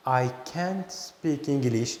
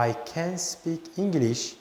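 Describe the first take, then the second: First: I can't speak English slowly, can't stressed; slow teaching model. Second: I can speak English, slow and even, can unstressed; slow teaching model. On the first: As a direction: spell out can't so the negative is heard. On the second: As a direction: say can lightly so it sounds positive. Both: Shown as a demonstration. Teacher contrasts can and can't for students.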